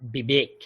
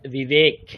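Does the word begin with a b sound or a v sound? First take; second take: b sound; v sound. First: It begins with a b sound, both lips closed. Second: It begins with a v sound, teeth on lip. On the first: The speaker calls it wrong. "Not বিবেক" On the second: The speaker calls it right. "উচ্চারণটা হচ্ছে বিবেক"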